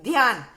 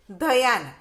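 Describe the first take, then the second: First: ध्यान with dh joined straight to y, "dhyaan"; crisp model of ध्यान, no vowel after dh; half-consonant pronunciation. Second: धयान with a full dha, "dha-yaan"; full-consonant misspelling. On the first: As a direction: say ध्यान as one joined syllable. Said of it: "आधा आता है". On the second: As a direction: sound out धयान in two syllables, dha then yaan. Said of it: "पूरा दिया हुआ है". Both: Shown as a demonstration.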